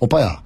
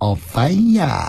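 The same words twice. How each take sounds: First: It is a plain, ordinary call. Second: It is said in a cute, coaxing tone.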